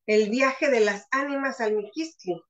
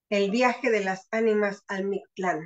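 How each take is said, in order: First: Ends with "Miquistli" said as mi-KEES-tlee; the slip "al Miquistli" before the correction; mistaken title. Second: Ends with "Mictlán" said as meek-TLAHN, stress on the end; the fixed title with "al Mictlán"; corrected title. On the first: Speaker presents her talk title, saying "Miquistli". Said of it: "aunque debiera decir El viaje de las ánimas al Mictlán". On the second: Speaker corrects her talk title to "Mictlán". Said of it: "Debiera de ser". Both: Shown as a demonstration.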